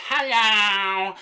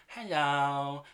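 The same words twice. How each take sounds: First: Much higher, louder, insistent "Hello!"; a toddler demanding attention. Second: Put-on toddler hello. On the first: Retold or imitated. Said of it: "some demanding tones in Jasmine's hellos". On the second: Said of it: "stood up on the middle seat and goes".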